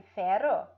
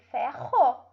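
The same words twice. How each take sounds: First: "ferro" with a tapped R, like "fero"; weak R. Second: "ferro" with a throaty H-like R; strong guttural R in "ferro". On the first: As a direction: mispronounce "ferro" with a light tongue-tip R. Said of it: "nem sei o que é isso". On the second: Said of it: "se tem o som forte". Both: Shown as a demonstration.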